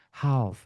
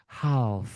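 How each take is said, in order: The two takes are said the same way.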